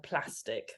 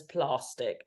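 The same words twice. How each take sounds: First: Said in the usual way. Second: PLASTIC with a long AH, "plah-stick"; imitating her pronunciation. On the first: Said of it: "Lee to say the word plastic". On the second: Co-host teasing Lee's way of saying plastic, with a long "ah". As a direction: mimic her, drawing the A in plastic out to "ah". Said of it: "because she says plastic".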